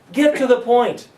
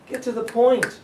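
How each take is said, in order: First: Loud, high, punchy command; emphatic. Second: High, punchy repeat; emphatic. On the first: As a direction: drive the point home. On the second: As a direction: hit it hard again. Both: Real, not acted.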